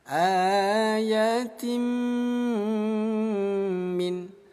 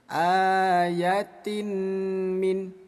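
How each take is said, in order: First: The n merges into a long nasal m. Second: The n is pronounced clearly before the m. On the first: The speaker calls it right. "bunyi tanwin ini kita masukkan ke huruf mim, lalu dengungkan dua ketukan" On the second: The speaker calls it wrong. "nggak boleh dibaca jelas. ... jangan seperti itu, nggak boleh ya"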